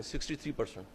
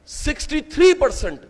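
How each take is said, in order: First: sixty three percent said again much softer and lower; a dropped-voice echo of sixty three percent; quiet repeat. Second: Said in the usual way. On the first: Real, not acted. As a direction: let sixty three percent sink in with a hushed, low echo. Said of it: "repeated figure for emphasis".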